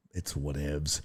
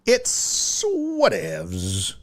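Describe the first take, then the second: First: Said in the usual way. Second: Higher, very slow, stretched "whatevs"; dismissive, slow "It's whatevs"; drawn-out whatevs. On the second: Acted. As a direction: drag out "whatevs" lazily. Repeats the phrase drawn out.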